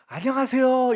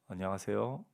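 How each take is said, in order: First: The greeting is said in an exaggerated, enthusiastic way. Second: The greeting is said in a subdued, restrained way.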